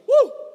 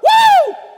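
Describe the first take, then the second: First: It is said fairly quietly. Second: It is hollered very loudly.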